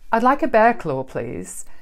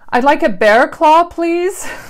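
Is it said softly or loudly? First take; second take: softly; loudly. First: It is said at a normal, soft volume. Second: It is said very loudly, exaggerated.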